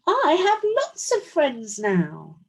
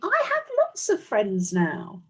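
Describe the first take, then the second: First: It is said very loudly. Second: It is said at a normal volume.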